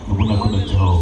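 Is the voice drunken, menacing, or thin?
menacing. It is said in a menacing, villainous voice. "Amrish పురి అనే villain చెబితే"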